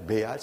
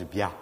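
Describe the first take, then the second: First: Said in the usual way. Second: Béal said locally as "Bia"; local Auvergne pronunciation. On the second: Shown as a demonstration. Lecturer showing how Auvergne says Béal, pronounced "Bia". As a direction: say Béal as "Bia", dropping the final L. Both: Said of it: "ça se prononce Bia".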